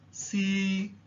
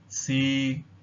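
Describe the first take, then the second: First: The pitch stays high and level. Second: The pitch stays level at mid height. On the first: The word means poem. "Tone number one is the high level tone, which stays at a high level" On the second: The word means to test. "the mid-level tone"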